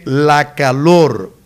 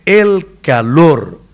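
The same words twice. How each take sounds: First: La calor said slowly as the mistaken form; the wrong way: la calor. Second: El calor very slow with el stressed and pitched up; the correction, leaning on el; correct form stressed. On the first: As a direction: slowly give la calor as the error. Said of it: "no se dice la calor". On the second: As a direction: hit el in el calor slowly. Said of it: "se dice el calor". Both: Shown as a demonstration.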